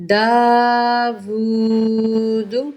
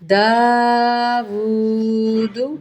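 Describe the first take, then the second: No difference in how they are said.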